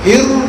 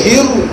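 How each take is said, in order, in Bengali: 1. শব্দটি একটি গোলাকার 'oo' স্বর দিয়ে শেষ হয়। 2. শব্দটি একটি গোলাকার 'oo' স্বর দিয়ে শেষ হয়।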